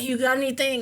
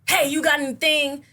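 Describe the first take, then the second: First: It is said weakly, half-heartedly. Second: It is said forcefully, full-throated.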